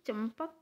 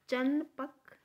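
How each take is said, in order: First: The nasal before p sounds like m. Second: The nasal before p sounds like n. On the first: The speaker calls it right. "चंपक में च म प क म की आधे म की आवाज़ आ रही है" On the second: The speaker calls it wrong. "हम कभी चंपक को चनपक ... नहीं पढ़ते"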